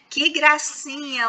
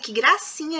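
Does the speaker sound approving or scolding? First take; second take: approving; scolding. First: It sounds warm and approving. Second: It sounds stern and scolding. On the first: The text is genuinely liked. "ela vai entender que a palavra gracinha foi empregada com um efeito positivo" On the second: The text is disliked and criticized. "vamos pensar que eu não gosto"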